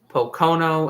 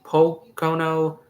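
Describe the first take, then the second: First: The stress is on the second syllable. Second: The stress is on the first syllable.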